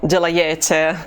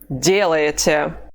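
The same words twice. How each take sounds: First: The stress falls on a later syllable. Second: The stress falls on the first syllable. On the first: The speaker calls it wrong. "or делаете" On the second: The speaker calls it right. "The stress mark is over the first vowel"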